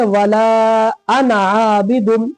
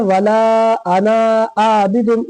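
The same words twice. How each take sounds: First: वला अना आबिदुन with a short final vowel on अना; slow recitation, long वला, quick "ana", long aa in आबिदुन; correct recitation. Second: वला अना आबिदुन with the last vowel of अना wrongly held; common misreading. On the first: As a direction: hold वला but keep अना short. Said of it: "इसको कैसे पढ़ेंगे". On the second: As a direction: slowly stretch "anaa" before आबिदुन. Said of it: "गलत पढ़ते हैं". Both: Shown as a demonstration.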